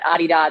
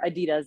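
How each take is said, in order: First: The name is said the non-American way. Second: The name is said the American way. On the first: This is how the company prefers it said. "Adidas is actually how they would prefer all of us to say it" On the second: This is how people in America say it. "like we say in America"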